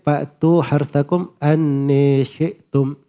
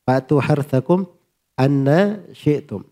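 First: The final vowel of anna is fronted toward e. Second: The final vowel of anna is a plain open a.

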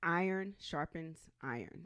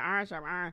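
First: It is said slowly and carefully. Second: It is said fast and run together.

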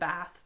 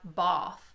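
First: The vowel matches the vowel in trap. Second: The vowel is long and back, unlike trap. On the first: "in Canadian and American English, we say trap and bath the same way" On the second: "but in British English, it's trap, both"

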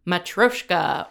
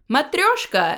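First: It is said with an anglicized pronunciation. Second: It is said with a native Russian pronunciation. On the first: The speaker calls it wrong. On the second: The speaker calls it right.

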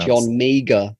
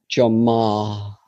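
First: The surname sounds like 'meager', with a hard g. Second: The surname sounds like 'marr', with no g.

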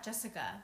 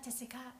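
First: The name is said with an English accent. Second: The name is said with a Thai accent. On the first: "Usually I'll be like" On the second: "when I'm in my Thai mode"

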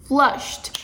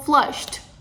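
First: The ending is just a short t sound. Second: The ending is just a short t sound.

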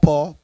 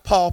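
First: The word is said in a deep Southern accent. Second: The word is said in a plain, non-Southern accent. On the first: The speaker calls it right. "Can I go deep south of all you?" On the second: The speaker calls it wrong. "Not Paul"

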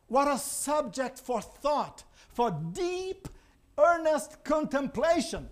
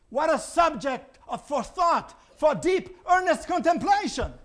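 First: It is read in a flat, plain way. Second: It is read as an emphatic exclamation. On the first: The speaker calls it wrong. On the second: The speaker calls it right.

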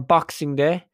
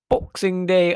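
First: It is said in the speaker's own Irish accent. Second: It is said in an imitated British accent.

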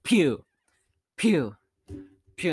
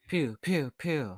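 First: Long pauses separate each pew. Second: Short pauses separate each pew. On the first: The character fires slowly with big gaps between shots. "She has a really big pause between her shots, like" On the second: A character firing quickly in rapid succession. "instead of like"

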